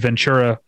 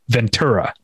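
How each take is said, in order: First: The middle consonant sounds like CH. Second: The middle consonant sounds like a plain T. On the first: The speaker is new to the area. The speaker calls it wrong. "like a CH sound" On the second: The speaker is from the area. The speaker calls it right. "Once you've been here long enough, you realize it's Ventura"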